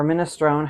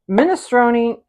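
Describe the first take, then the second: First: "minestrone" ending on "-strone", no ee; minestrone with silent e. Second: "minestrone" ending in a sounded "-nee"; minestrone with final ee. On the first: Cook offering the other way, "minestrone" with silent final e. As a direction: say "minestrone" as min-uh-STROHN. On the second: Cook offering one way to say the soup, "minestrone" with final ee. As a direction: say "minestrone" as min-uh-STROH-nee. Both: Shown as a demonstration. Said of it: "however you wanna say it".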